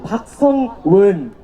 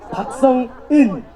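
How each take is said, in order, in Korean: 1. 마지막 음절은 "won"으로 발음됩니다. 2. 마지막 음절은 "eun"으로 발음됩니다. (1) "자꾸 박성원, 박성은, 박성웅, 이런 식으로 다들 발음을 하시거든요" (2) "자꾸 박성원, 박성은, 박성웅, 이런 식으로 다들 발음을 하시거든요"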